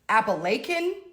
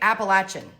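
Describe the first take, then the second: First: It is said the Pennsylvania way. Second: It is said the North Carolina way. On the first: "Apparently Pennsylvania people say it like that" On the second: "I say Appalachian"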